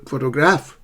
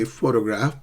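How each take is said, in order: First: "photograph" wrongly as photo-GRAPH, rising; mis-stressed photo-GRAPH; misplaced stress. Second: "photograph" as PHO-to-graph; intended first-syllable stress. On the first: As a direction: shift the weight to GRAPH in "photograph". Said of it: "but you say this was a". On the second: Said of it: "you want to say photograph". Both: Shown as a demonstration.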